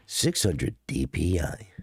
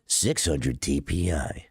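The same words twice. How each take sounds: First: DPI voice. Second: Slow deep DPI announcer. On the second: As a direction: drop it low and slow like a DPI readout. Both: Pretend. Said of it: "sick voice is giving them D P I energy".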